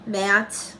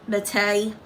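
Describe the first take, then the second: First: Said in the usual way. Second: "Matte" misread for a laugh as "muh-tay"; jokey mispronunciation. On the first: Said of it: "It's pronounced matte". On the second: Shown as a demonstration. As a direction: say "Matte" as two syllables, "ma-TAY". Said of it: "I'm trying to be funny".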